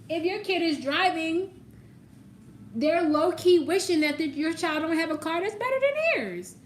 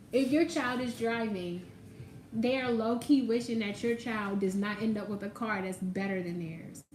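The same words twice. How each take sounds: First: High-pitched, loud mock dramatics; exaggerated high delivery. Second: Said in the usual way. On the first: Reader teasing about a jealous parent's wish, high and exaggerated. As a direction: push it up high and loud, hammed-up.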